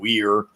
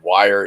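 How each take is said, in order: First: The name rhymes with 'fear'. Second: The name rhymes with 'fire'. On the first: The speaker calls it right. "It's not. It's" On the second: The speaker calls it wrong. "mispronounce his name as Ted Wire"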